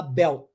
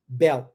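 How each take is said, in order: First: "belt" with the final T swallowed, ending on the L. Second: "belt" cut short, no T, just "bel"; swallowed T. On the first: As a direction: drop the T at the end of "belt". ("belt" engolindo o T final) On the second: ("belt" sem o T, só "bel") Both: Shown as a demonstration. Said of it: "engolir o T".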